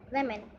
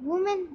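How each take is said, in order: First: The first syllable sounds like 'weh'. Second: The first syllable sounds like 'woo'. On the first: The speaker calls it right. "हमारा दूसरा अल्फाज है वेमेन" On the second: The speaker calls it wrong. "इस अल्फाज को लोग वुमेन कहते हैं, लेकिन फिर से इसको वो गलत प्रोनाउंस करते हैं।"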